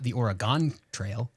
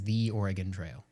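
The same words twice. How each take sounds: First: Oregon is said the East Coast way. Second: Oregon is said the local Northwest way. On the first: The speaker calls it wrong. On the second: The speaker calls it right.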